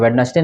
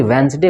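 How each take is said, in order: First: वेडनेसडे as "wed-nas-day"; spelling-based वेडनेसडे, every syllable said; mispronounced with D. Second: वेंसडे as "wens-day"; first D dropped from वेंसडे; correct, silent D. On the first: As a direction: sound the first D in वेडनेसडे, as a wrong reading. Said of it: "वेडनेसडे नहीं होता है". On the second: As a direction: say वेंसडे in two syllables, no first D. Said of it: "इसमें डी silent हो जाता है". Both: Shown as a demonstration.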